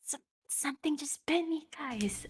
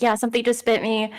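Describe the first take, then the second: First: Hushed, urgent whisper. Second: Said in the usual way. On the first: Acted. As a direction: whisper a warning to your companions. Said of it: "whispering this". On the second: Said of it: "and then I say".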